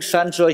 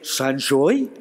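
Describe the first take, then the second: First: It is said in a plain, ordinary accent. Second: It is said with a put-on French-sounding accent.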